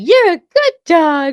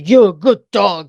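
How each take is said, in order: First: It is said in a happy voice. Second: It is said in a gruff voice.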